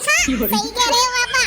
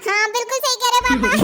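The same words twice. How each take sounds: First: Sarcastic yes-man to dad; slow, mock-obedient "हाँ, सही कह रहे हो पापा". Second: Said in the usual way. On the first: Shown as a demonstration. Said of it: "ऐसे थोड़ी". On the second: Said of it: "मैं कहूंगा".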